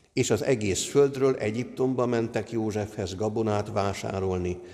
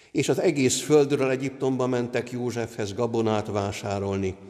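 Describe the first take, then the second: Both takes have the same delivery.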